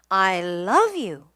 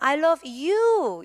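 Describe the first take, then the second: First: The word love carries the strongest stress. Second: The word you carries the strongest stress. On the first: "왜 love가 강조된지 이유가 있어요" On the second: "내가 사랑하는 사람이 he도 아니고 she도 아니고 너다. 이럴 때는"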